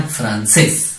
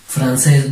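First: "Francés" split, with weight on -cés; stress on last syllable. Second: Said in the usual way. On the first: Shown as a demonstration. Teacher answers how it sounds, stressing -cés in "Francés". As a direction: say "Francés" as Fran, then a long stressed CÉS. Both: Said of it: "¿Cómo sería?".

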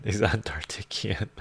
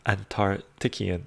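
First: Unvoiced whisper of the name; hushed repeat. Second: Said in the usual way. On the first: Real, not acted. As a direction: breathe it out with no voice.

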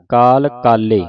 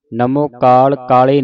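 First: ਕਾਲੇ with a held l, "kaal-le"; corrected reading. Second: ਕਾਲੇ with a single short l, "kaale"; quick ਕਾਲ ਕਾਲੇ, the last l left light; mistaken reading. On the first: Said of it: "ਇਸ ਤਰ੍ਹਾਂ ਪੜ੍ਹਨਾ". (ਕਾਲੇ ਦਾ ਲੱਲਾ ਦਬਾ ਕੇ ਬੋਲੋ) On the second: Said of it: "ਨਹੀਂ ਕਹਿਣਾ". (ਕਾਲੇ ਦਾ ਲੱਲਾ ਹਲਕਾ, ਬਿਨਾ ਜ਼ੋਰ ਤੋਂ) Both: Shown as a demonstration.

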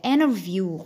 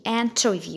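First: "interview" with silent T; American INTERVIEW. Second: "interview" with the T sounded; crisp T in "interview"; British INTERVIEW. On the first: Teacher showing American "interview", silent-T pronunciation. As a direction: say "interview" like "innerview". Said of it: "letter T هيبقى silent". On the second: Teacher showing British "interview", full-T pronunciation. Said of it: "في البريتش أكسنت هيتقال T". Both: Shown as a demonstration.

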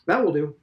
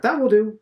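First: Brisk. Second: Put-on old headmaster dismissing Stephen, loud and brisk; louder, higher brisk. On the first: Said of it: "Mister Deasy said briskly". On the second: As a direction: raise the voice, clipped and final. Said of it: "Mister Deasy said". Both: A narrator's reading.

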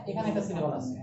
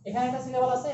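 First: Lower repeat. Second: Higher repeat. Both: Shown as a demonstration.

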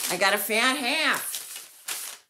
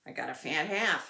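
First: "I got a fat half" slow, with "fat" stretched and stressed; gloating. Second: Said in the usual way. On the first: Shown as a demonstration. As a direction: savor the word "fat", proud and teasing. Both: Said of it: "because I've got a fat half".

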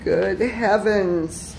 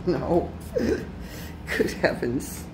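First: Louder, slow exasperated cry; exasperated exclaim. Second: Slow, laughing exclamation. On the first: Man repeating his dismay at the derail, louder. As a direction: say it out loud in disbelief. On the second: Man laughing at his train mishaps, slow disbelief. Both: Real, not acted.

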